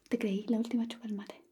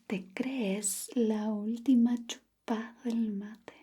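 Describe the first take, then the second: First: The word crees drops its final s sound. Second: The word crees keeps its final s sound. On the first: The speaker calls it right. "debe decir" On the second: The speaker calls it wrong. "no diga"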